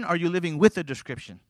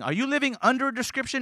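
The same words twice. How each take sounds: First: "with" stressed, then falling to the end. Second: "under" lifted high, rising question; stress on under. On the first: Preacher offering the congregation the better choice, stress on "with". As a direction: set "with" against the other choice, settling downward. Contrasts with against under. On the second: Preacher challenging the congregation with two choices, stress on "under". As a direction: lean on "under" with raised pitch. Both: Real, not acted.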